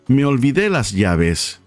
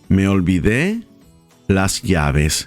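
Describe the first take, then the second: First: The phrase is said at normal speed. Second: The phrase is said slowly.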